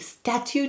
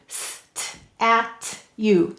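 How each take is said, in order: First: It is said quickly with a ch sound. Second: It is said in parts with a clear t sound. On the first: "Very quickly, what does it turn into? ... it turns into a ch" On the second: "Now let's read it"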